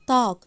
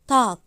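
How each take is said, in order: First: The word ends with a light k sound. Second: The same.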